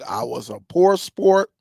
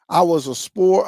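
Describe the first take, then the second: First: Poor said slower and lower, leaning on it; a sheepish slow stress on poor. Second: Said in the usual way. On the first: Shown as a demonstration. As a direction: correct himself by hitting poor. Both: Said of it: "I, look".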